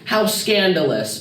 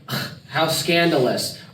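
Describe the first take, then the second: First: It is said in a cute tone. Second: It is said in a sarcastic tone.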